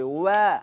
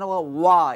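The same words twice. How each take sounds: First: ওয়া said light and thin, the correct way; ওয়া with a light, thin letter. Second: ওয়া said thick and heavy, the mistaken way; ওয়া with a full, dark heavy letter, as wrong. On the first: Teacher shows pupils the correct thin ওয়া. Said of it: "পাতলা হবে". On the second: Teacher shows pupils the mistaken heavy ওয়া. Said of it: "এটি ভুল হবে". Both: Shown as a demonstration.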